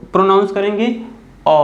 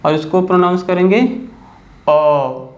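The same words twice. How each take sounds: First: अ said short and quick; short quick vowel. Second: Slow, stretched अ at the end; long drawn vowel. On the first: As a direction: clip the अ short. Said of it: "थोड़ा जल्दी pronounce कर रहा हूँ". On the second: Teacher contrasts long vowel for pupils. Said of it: "ज़्यादा समय तक pronounce कर रहा हूँ". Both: Shown as a demonstration.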